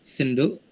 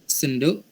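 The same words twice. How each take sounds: No difference in how they are said.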